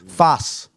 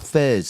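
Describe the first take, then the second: First: It is said like 'fas', ending in s. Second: It is said like 'fez', ending in z. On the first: The speaker calls it right. "F E Z is F A S. Fas" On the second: The speaker calls it wrong. "you're saying it wrong. It's not Fez"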